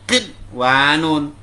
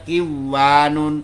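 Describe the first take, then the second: First: The n sound is heard clearly before w. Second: The n sound merges into the following w. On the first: The speaker calls it right. "Dibaca berat kinwanun" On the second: The speaker calls it wrong. "bukan dibaca kiwanun"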